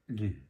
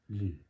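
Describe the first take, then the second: First: The word sounds like 'loo' with one vowel. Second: The same.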